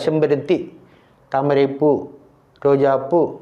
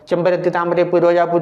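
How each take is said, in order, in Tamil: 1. ஒவ்வொரு மலர் பெயருக்குப் பின்னும் ஒரு சிறிய இடைவெளி வரும். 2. மலர் பெயர்கள் இடைவெளி இல்லாமல் ஒன்றாகத் தொடர்ந்து வரும். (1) "ஒரு அரை மாத்திரை அளவுக்கு நிறுத்தி நிறுத்தி படிக்க வேண்டும்" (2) "இல்லாமல் ... அப்படி வாசித்தால் யாருக்குமே ஒன்றுமே புரியாது"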